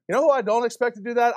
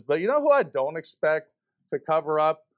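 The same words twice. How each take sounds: First: "You know who I don't expect to do that?" repeated higher, faster and louder, hitting "who"; emphatic repeat. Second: Said in the usual way. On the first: Real, not acted. Preacher pressing the congregation on "who", higher and faster. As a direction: fire back "who" with rising heat.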